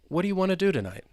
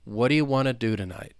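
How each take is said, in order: First: The sentence is spoken at a faster pace. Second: The sentence is spoken at a slow pace. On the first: "And now I'll say it faster" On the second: "Let's say it slowly"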